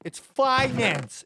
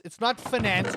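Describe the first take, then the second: First: Slow, finance said FINE-ance; FINE-ance pronunciation. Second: Finance said fi-NANCE, short first vowel; fi-NANCE pronunciation. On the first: Streamer correcting chat, finance firmly as FINE-ance. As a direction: hit FINE in finance, long i. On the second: Streamer rejecting chat's version, finance as fi-NANCE. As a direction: stress the end of finance, fi-NANCE. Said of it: "No, it's finance". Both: Shown as a demonstration.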